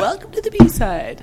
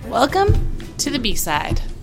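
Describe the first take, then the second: First: It is said in a put-on voice. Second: It is said in a natural voice.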